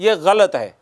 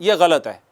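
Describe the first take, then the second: Both takes have the same delivery.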